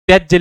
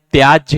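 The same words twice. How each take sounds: First: त्याज्य said "tyajja", with a short vowel; wrong short form. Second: त्याज्य said "tyaajya", with a long aa; correct long form. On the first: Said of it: "त्याज्य लिखा है". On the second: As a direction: lengthen the first vowel of त्याज्य. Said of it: "त्याज्य होता है". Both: Shown as a demonstration.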